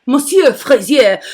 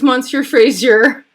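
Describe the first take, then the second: First: Playful French pronunciation with a uvular R; French accent. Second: Said in the usual way. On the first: Pretend. Host re-saying her friend's name, put-on French accent. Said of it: "doing this French thing".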